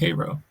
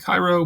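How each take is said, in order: First: Cairo is said the way the American locals say it. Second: Cairo is said the way Egyptians say it. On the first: This is how the American town's residents name it. "in Cairo they pronounce it Cairo" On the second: This is how the Egyptian city is named. "in Egypt they pronounce it Cairo"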